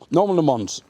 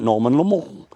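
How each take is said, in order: First: The name is given a plain English pronunciation. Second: The name is given a French-style pronunciation. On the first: The speaker calls it right. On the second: The speaker calls it wrong.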